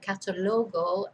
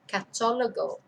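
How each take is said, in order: First: The stress falls on the second-to-last syllable. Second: The stress falls on the third-to-last syllable. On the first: The listener could not understand the word. The speaker calls it wrong. "I was saying catalogo" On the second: The word is understood as catalogue. The speaker calls it right. "and not catalogo"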